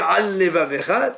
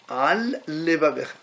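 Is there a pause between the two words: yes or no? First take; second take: no; yes. First: The two words run together without a pause. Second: There is a short pause between the words.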